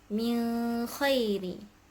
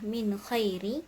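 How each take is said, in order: First: The n sound is hidden, nasalized into the kh. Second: The n sound is pronounced clearly and fully. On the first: "akan membaca ikhfa" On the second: "akan membaca tahqiq"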